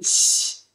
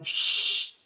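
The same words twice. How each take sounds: First: The s sound is thin, jaw held normal. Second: The s sound is thick, jaw pushed forward. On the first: The speaker calls it right. "tapi sh" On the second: The speaker calls it wrong. "jangan sh"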